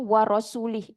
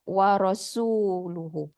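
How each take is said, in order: First: The word ends with the sound 'li'. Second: The word ends with the sounds 'luhu'. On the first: It reads as though God disowns His Messenger. The speaker calls it wrong. "Dia baca warasuli" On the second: God and His Messenger are both free of the idolaters. The speaker calls it right. "instead of warasuluhu"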